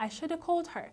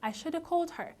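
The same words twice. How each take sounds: First: 'Should have' is reduced and run together. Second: The same.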